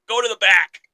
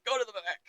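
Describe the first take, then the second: First: Mock order. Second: Said in the usual way. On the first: Kane ordering R-Truth out.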